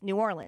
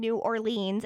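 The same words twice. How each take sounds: First: It is said with a Southern pronunciation. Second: It is said with a non-Southern pronunciation. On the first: This is how people in the South say it. "I moved to the South, and it's New Orleans" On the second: This is how the speaker said it growing up. "I grew up saying New Orleans"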